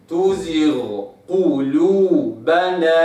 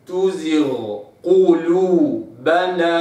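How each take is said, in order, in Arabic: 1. يُنطق صوت gh واضحًا قبل q. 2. يُنطق صوت gh واضحًا قبل q.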